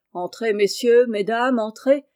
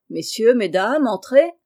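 First: Fairground barker. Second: Louder barker call. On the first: Showman calling the fair crowd into his tent, barker call. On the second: Showman hailing passers-by again, louder barker shout. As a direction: belt it out to the whole fair. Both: A narrator's reading.

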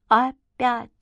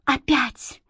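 First: Daughter's dazed echo, a little higher; echoing her mother's word. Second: Higher, strained cry of dread; frightened mother crying out; mother's horrified cry. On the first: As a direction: repeat the word back like an echo. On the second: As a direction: gasp it out as the mother, seeing the old man. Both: A narrator's reading. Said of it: "эхом отозвалась Света".

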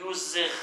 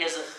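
First: يزغ as yuzagh, u on the ya and a fatha on the z; passive yuzagh. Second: يزغ as yazigh, ya with a kasra on the z; active yazigh. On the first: Teacher reading the passive-voice form to the class. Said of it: "وقرئ بالبناء للمجهول يزغ". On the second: Teacher reading the active-voice form to the class. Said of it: "بالبناء للفاعل يزغ". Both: Shown as a demonstration.

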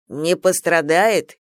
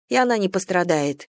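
First: "Не пострадает?" repeated slowly in disbelief; slow, stunned echo of "Не пострадает?"; astonished repeat. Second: Said in the usual way. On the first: A narrator's reading. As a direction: general echoing "Не пострадает?" in astonishment. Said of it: "изумлённо повторил Неджа".

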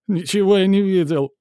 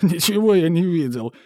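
First: High, loud insistence; bloodied manager yelling he saw nothing; shrill denial. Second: High, loud whine; mock whimpering denial. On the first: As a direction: yell the denial. Repeated denial, louder. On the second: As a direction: whine it like a beaten man. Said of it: "прохныкал управляющий". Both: A narrator's reading.

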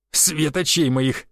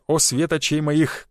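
First: Slow, mocking echo of «свет очей моих»; mocking laugh. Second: Slow, sugary drawn-out «свет очей моих»; sly flirting. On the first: Conductor mocking the passenger's compliment, amused and slow. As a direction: repeat his compliment back, amused. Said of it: "засмеялась проводница". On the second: Acted. Vitalik flirting with the conductor, slow sly compliment. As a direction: lay the charm on thick with «о». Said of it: "хитро подмигнул".

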